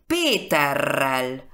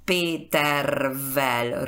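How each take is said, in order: First: Péterrel slowly, with a long rolled double r; slow Péterrel, lengthened r; V becomes R. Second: Petervel with an unchanged v after the r; labored R-to-V join in Petervel; hard-to-pronounce form. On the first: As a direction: say Péterrel with the v turned into r. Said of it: "transforma en esa última consonante". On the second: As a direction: say Petervel keeping both r and v. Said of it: "es muy difícil pronunciar". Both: Shown as a demonstration.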